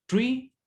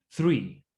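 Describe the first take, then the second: First: Tree with a plain t, no th; Tree like the word for a tree. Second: Three with tongue between teeth; English th. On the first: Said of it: "ya no suena tree". (Tree con T simple) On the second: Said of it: "lengua entre medio de los dientes". (three con la lengua entre los dientes) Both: Shown as a demonstration.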